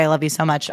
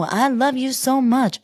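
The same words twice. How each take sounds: First: Said in the usual way. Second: High, slow put-on reality-star voice; high and drawn-out, gushing; Huda impression. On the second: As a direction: gush it in her high islander voice. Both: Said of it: "She didn't say".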